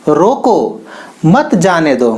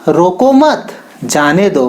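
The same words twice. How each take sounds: First: The pause comes after the first word. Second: The pause comes after the second word. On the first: The person should be stopped and not let go. "इस comma को रोको के बाद समझा" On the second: The person should not be stopped and be let go. "यही comma मत के बाद लगाया"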